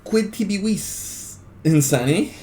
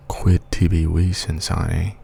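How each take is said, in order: First: High, slow, ringing declamation of Quid tibi vis; full-voiced dramatic recitation of the Latin line; dramatic declaiming. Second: Hushed ASMR recitation, calm and close; ASMR Latin. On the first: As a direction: project the line like a stage orator, drawn out and high. Dramatic reading before ASMR switch. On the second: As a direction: murmur the Latin gently and slowly, ASMR style. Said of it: "we'll do some A S M R Latin". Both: Shown as a demonstration.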